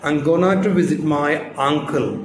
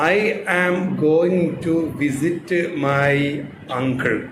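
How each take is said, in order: First: It is faster, with going to reduced. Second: Every word is said fully and slowly. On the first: "അല്പം speed അങ്ങോട്ട് കൂടും" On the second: "നമ്മൾ എഴുതിയ പോലെ വായിച്ചതാണ്"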